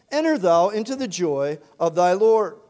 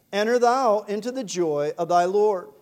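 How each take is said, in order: Both takes have the same delivery.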